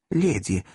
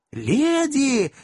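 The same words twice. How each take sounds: First: Said in the usual way. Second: High, urgent shout of Леди. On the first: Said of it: "«Леди!» закричал". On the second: Acted. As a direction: call out над общим визгом. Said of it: "закричал мистер Пиквик". (крик: «Леди!»)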